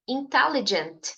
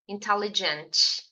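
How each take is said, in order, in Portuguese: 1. O T final é pronunciado de forma suave e sutil. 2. O T final é pronunciado com força e clareza. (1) "você precisa ser sutil na sua pronúncia da letra T" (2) "Não diga intelligent"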